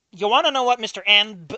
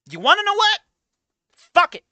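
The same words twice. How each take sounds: First: Higher, loud challenge; building call-out. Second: Much higher, louder final challenge; peak shout. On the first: Streamer confronting the writer, loud building shout. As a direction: ramp up the confrontation. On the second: Streamer giving up on the writer, loudest exasperated shout. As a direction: let it break at the top. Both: Real, not acted.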